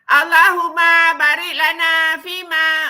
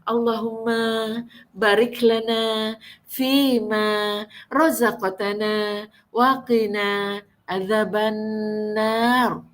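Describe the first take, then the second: First: It is read in a loud, harsh voice. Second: It is read in a soft, coaxing voice.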